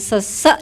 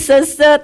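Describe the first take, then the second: First: The last syllable carries the stress. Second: The last syllable carries no stress. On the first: The speaker calls it wrong. "dengan penekanan di belakang, kayak sesek napas gitu ya" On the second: The speaker calls it right. "tanpa penekanan di belakang"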